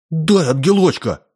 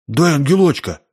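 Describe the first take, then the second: First: Rough demand. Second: A bit higher, gruff demand; rough demand. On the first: Boy kneeling, hatefully demands the angel, high and rough. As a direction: bark out the demand on your knees. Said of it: "грубо потребовал". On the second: Boy rudely demands the angel from the hostess. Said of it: "Сашка грубо сказал". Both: A narrator's reading.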